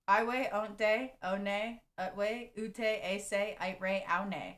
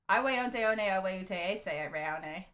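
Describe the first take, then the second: First: It is said more slowly. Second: It is said at normal, quicker speed.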